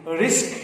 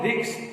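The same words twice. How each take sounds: First: "risk" with s before k, rɪsk; correct risk. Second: "risk" said as riks, s after k; wrong risk. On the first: Teacher gives the right "risk", s then k. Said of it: "it is risk". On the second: Teacher mimics the common mistake, "risk" said riks. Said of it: "It's not risk". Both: Shown as a demonstration.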